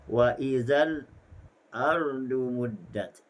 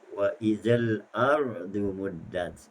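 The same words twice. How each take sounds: First: There is a brief stop before ardu. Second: The words run on without a stop before ardu. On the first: "dibaca dengan saktah" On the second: "Itu bacaan Hafs al-Asim"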